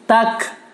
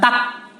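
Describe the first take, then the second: First: The final k ends with a breathy puff of air. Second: The final k ends without a breathy puff of air. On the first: The speaker calls it right. "Hames keluar udara dari mulut" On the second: The speaker calls it wrong. "Bukan tak"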